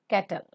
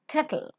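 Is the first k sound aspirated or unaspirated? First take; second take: unaspirated; aspirated. First: The k is unaspirated and l does not follow directly. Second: The k is aspirated and l follows t directly. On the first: The speaker calls it wrong. "not kettle" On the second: The speaker calls it right. "ka is to be aspirated, and pronounce l immediately after t"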